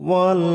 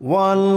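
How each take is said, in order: The two takes are said the same way.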